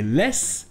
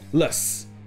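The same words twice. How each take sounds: First: The vowel is a full clear E sound. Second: The vowel is a short reduced schwa sound. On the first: The speaker calls it wrong. "avec les sons O, OU et E" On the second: The speaker calls it right. "ça se prononcera avec le son court E"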